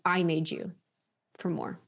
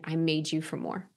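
First: The word 'I' carries strong emphasis. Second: The word 'I' carries no special emphasis.

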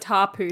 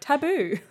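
First: The middle consonant is a p sound. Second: The middle consonant is a b sound. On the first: This is how the islanders said the word. "I'm guessing they said tapu though" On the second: This is how the visitor heard and repeated the word. "and he's just like taboo"

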